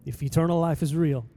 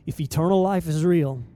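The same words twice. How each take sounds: The two takes are said the same way.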